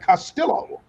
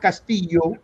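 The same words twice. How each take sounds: First: The name is said with an English pronunciation. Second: The name is said with a Spanish pronunciation. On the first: The speaker claims a changed, assimilated identity. "I changed the pronunciation of my last name" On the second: The speaker disowns the original identity. "I'm not"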